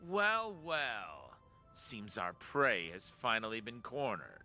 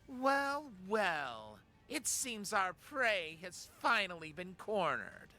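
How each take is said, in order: First: It is said in a sultry voice. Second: It is said in a plain voice.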